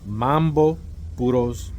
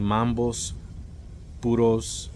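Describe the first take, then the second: First: The first word ends without an s sound. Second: The first word ends with an s sound. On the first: The speaker calls it right. "the name correctly, which is Mambo Puros" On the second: The speaker calls it wrong. "constantly saying Mambos Puros instead of saying the name correctly"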